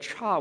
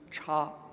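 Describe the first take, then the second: First: The syllable has a sharp falling tone. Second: The syllable has a high level tone. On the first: It means mistake. "read cha with a fourth tone" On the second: It means different. "first tone"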